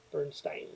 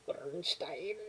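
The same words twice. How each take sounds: First: Said in the usual way. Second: Unvoiced whispered Bernstein. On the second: Shown as a demonstration. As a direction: breathe Bernstein out as a hushed afterthought. Repeats composer's name.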